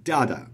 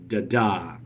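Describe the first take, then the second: First: "Da-da" punched on the first syllable, second one light; stress on first syllable. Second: "da-da" with a light first beat and a long, stressed second; stress on second syllable. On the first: Teacher flipping the foot around, first syllable stressed in "Da-da". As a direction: trochaic DA-da, falling off after the first beat. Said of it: "stressed, unstressed". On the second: Teacher showing students an iambic foot, second "da" stressed in "da-da". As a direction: iambic da-DA, weight landing on the second "da". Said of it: "the second syllable is stressed".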